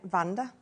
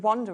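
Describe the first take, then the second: First: The name begins with a V sound. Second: The name begins with a W sound. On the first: This is how the bearer says it, sounding a bit posh. "she pronounces it Vanda" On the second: This is how the name is normally said. "it's supposed to be Wanda"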